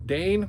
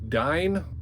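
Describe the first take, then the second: First: The vowel sounds like the one in 'day'. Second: The vowel sounds like the one in 'die'. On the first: "Dane just sounds better" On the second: "I think it's actually Dine"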